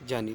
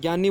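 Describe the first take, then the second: First: The word begins with a j sound. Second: The word begins with a g sound. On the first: This is the traditional correct pronunciation. The speaker calls it right. "सही उच्चारण क्या होता है? जानी" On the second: This is the everyday popular pronunciation. The speaker calls it wrong. "इसका उच्चारण हम गे करते हैं"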